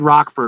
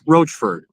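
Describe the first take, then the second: First: The first syllable sounds like 'rock'. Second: The first syllable sounds like 'roach'. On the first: This is how outsiders first said the name. The speaker calls it wrong. "We said Rockford originally" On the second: This is how the locals say the name. The speaker calls it right. "people in town told us it was Roachford"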